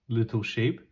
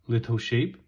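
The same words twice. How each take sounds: The two takes are said the same way.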